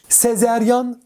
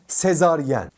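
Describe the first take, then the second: First: It has e then a, ending in -yan. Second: It has a then e, ending in -yen. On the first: The speaker calls it wrong. "Sezeryan değil" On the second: The speaker calls it right. "Doğrusu sezaryen"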